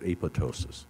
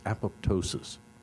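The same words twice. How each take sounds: First: The P in the middle is left out. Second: The P in the middle is pronounced.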